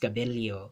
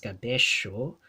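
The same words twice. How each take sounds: First: The double L is said as an li sound. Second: The double L is said the Argentine way. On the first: "but in the Philippines" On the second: "in Argentina would be pronounced as cabello"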